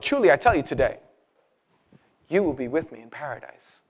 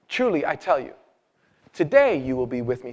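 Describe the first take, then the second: First: The pause comes after the word 'today'. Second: The pause comes before the word 'today'.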